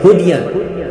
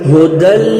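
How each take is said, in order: First: A 'y' sound is pronounced in the middle. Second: No 'y' sound is pronounced in the middle. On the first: The speaker calls it wrong. "बहुत सारे बच्चे यहाँ पर पढ़ते हैं हुदियन, जो कि गलत है" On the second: The speaker calls it right. "हुदन की जो या है उसको हम नहीं पढ़ेंगे"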